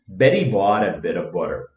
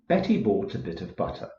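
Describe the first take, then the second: First: It is spoken in an American accent. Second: It is spoken in an Irish accent. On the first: "an American accent" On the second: "in an Irish accent"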